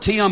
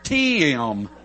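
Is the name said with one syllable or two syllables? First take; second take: one syllable; two syllables. First: The name is said as one short syllable. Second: The name is drawn out into two syllables, North Carolina style.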